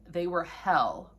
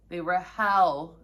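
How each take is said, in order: First: Said in the usual way. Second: They were hell repeated louder, hell leaned on slowly. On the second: Shown as a demonstration. Warning viewers about biopsies, repeating it louder for emphasis. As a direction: say it louder for those in the back. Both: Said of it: "say that louder for those in the back".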